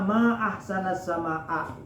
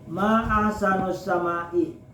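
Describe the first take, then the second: First: The words end in 'a' and 'a' vowels. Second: The words end in 'u' and 'i' vowels. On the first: It expresses wonder at how beautiful the sky is. The speaker calls it right. "seharusnya ma ahsanas sama'a" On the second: It asks which thing in the sky is most beautiful. The speaker calls it wrong. "Nah itu salah penyebutan"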